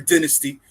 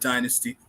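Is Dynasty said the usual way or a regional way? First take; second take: regional; usual. First: Dynasty is said a regional, foreign-sounding way. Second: Dynasty is said the speaker's usual way.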